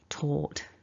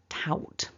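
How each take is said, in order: First: The vowel sounds like 'or'. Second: The vowel sounds like 'ow'. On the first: The speaker calls it right. "what you're aiming for is not an ow, it's an or" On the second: The speaker calls it wrong. "I've definitely heard people mispronounce this word as tout"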